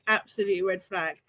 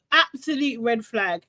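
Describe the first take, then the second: First: Softer, lower repeat to herself; "Absolute red flag" dropped low and soft; quieter echo. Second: Said in the usual way. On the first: Real, not acted. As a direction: murmur it again under your breath. Echoing her own verdict.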